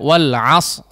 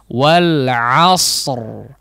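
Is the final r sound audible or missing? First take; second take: missing; audible. First: The final r sound is dropped. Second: Both final consonants, including r, are heard clearly. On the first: The speaker calls it wrong. "Huruf ro-nya hilang ya" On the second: The speaker calls it right. "Tetap menjelaskan kedua huruf yang disukunkan tersebut ya"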